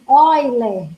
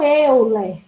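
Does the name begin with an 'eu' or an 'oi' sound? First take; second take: oi; eu. First: The name begins with an 'oi' sound. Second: The name begins with an 'eu' sound. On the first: The speaker calls it right. "É escrito com E, o início, mas pronuncia-se Euler" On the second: The speaker calls it wrong. "e não Euler"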